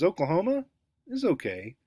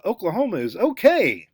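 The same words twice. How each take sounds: First: "Oklahoma" rising, a pause, then "is okay" dropping; rising tune, pause. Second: "Oklahoma is okay" with "okay" falling firmly. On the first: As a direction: lift "Oklahoma", pause, let "is okay" fall. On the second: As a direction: land hard and down on "okay". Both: Shown as a demonstration. Teacher contrasting tunes on the same sentence. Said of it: "two completely opposite meanings".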